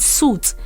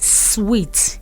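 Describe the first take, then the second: First: The word is pronounced like suit. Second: The word is pronounced like sweet. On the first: The speaker calls it wrong. "people don't know the right pronunciation. They call it suit" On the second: The speaker calls it right. "Is sweet and not suit"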